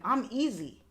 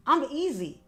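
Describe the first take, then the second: First: Said in the usual way. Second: "I'm easy" again, higher and louder, stress on "I'm"; pleading emphasis on "I'm easy"; emphatic repeat. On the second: Shown as a demonstration. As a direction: push the second "I'm easy" up and out.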